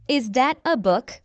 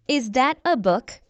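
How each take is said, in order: Both takes have the same delivery.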